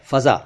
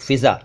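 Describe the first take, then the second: First: फ़ज़ा with short a after फ़; correct pronunciation. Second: फ़िज़ा with short i after फ़; wrong pronunciation. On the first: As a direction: say फ़ज़ा as fa-zaa, no i sound. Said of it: "असल में ये फ़ज़ा है". (फ़ज़ा, फ़ के साथ अ, सही उच्चारण) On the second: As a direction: say फ़िज़ा as fi-zaa, the common mistake. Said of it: "फ़िज़ा कहते हैं लोग". (फ़िज़ा, इ की मात्रा वाला गलत उच्चारण) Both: Shown as a demonstration.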